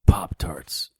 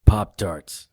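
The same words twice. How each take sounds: First: Pop-Tarts whispered faintly; weak whisper. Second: Pop-Tarts repeated in clear louder voice. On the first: Injured hero whispers his request to the mother, faint. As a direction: barely breathe out Pop-Tarts. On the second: Hero repeats his request to the mother, clearly and louder. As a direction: say Pop-Tarts again so she hears. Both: Acted.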